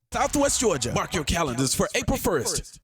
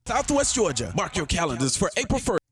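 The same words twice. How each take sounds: The two takes are said the same way.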